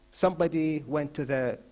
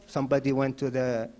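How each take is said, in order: Both takes have the same delivery.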